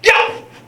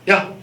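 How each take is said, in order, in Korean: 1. 이 말은 크게 소리쳐요. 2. 이 말은 부드럽고 약하게 말해요. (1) "왜 소리를 지르고 그러세요?" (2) "경고하는 사람은 그렇게 하지 않아요"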